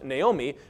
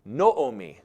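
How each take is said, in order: First: The first vowel sounds like 'nay'. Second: The first vowel sounds like 'no'. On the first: The speaker calls it wrong. "would not have been pronounced Naomi" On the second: The speaker calls it right. "would have been pronounced Noomi"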